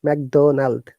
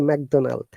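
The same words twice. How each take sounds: First: It is said with a French-like altered D. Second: It is said with a French-like altered D.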